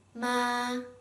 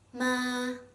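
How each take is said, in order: First: The pitch stays high and level. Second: The pitch stays high and level.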